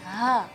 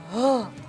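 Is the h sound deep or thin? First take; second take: thin; deep. First: The h sound is thin and light. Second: The h sound is deep, heavy and bassy. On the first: The speaker calls it right. "maka harus keluarnya tipis" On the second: The speaker calls it wrong. "H-nya besar banget, yaitu misalnya ngebas gitu ... itu salah ya"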